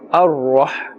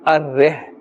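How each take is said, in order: First: The R is said with a full, heavy mouth. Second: The R is said thin, with a light vowel. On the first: The speaker calls it right. "pronounced with a full mouth" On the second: The speaker calls it wrong. "not Ar-Reh"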